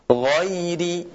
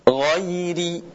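No difference in how they are said.

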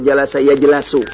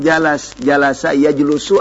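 First: The vowel after the l is a. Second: The vowel after the l is u. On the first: "Enggak mungkin" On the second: "Enggak mungkin"

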